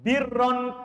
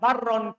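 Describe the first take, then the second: First: The first vowel is an 'i' sound. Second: The first vowel is an 'a' sound.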